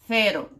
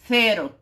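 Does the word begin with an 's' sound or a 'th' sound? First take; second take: th; th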